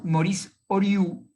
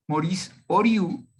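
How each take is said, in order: First: "Oriu" slow, as O-R-I-U with stress on the U; careful pronunciation. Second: "Oriu" slow and a bit louder, stress on the final U; careful pronunciation. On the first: Teacher showing students how to pronounce the author's name, slowly and clearly. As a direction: spell out "Oriu" by sound, stress on the final U. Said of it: "se pronuncia muy sencillo, es Oriu". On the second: Teacher repeats the name after explaining it, slow and clear. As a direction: repeat "Oriu" for the class, landing on the U. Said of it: "con acento en la U". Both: Shown as a demonstration.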